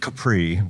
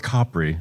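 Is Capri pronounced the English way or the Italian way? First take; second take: English; Italian. First: It is pronounced the usual English way. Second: It is pronounced the local Italian way.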